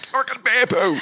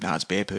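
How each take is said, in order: First: Much higher, louder, fed-up bear poo; exasperated outburst. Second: Said in the usual way. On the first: Retold or imitated. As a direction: blurt it out in frustration. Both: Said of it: "And I went".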